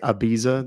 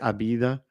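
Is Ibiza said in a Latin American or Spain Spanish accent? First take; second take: Latin American; Spain. First: It is said in a Latin American Spanish accent. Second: It is said in a Spain Spanish accent. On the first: "They don't say Ibiza" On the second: "they say Abida"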